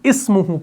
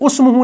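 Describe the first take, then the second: First: The word begins with an 'i' vowel. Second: The word begins with a 'u' vowel. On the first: The speaker calls it right. "बल्कि इस्मुहु पढ़ेंगे" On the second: The speaker calls it wrong. "उस्मुहु नहीं पढ़ेंगे"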